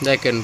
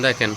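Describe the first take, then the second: No difference in how they are said.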